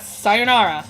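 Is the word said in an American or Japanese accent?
American. It is said with an American accent. The speaker calls it wrong. "That that's American"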